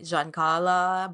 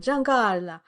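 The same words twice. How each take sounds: First: The name is said with English pronunciation. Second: The name is said with Italian pronunciation. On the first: This is how locals in an English-speaking city say it. "since I moved to Melbourne, they'd say" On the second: This is how Italian speakers say it. "my f- Italian friends would go"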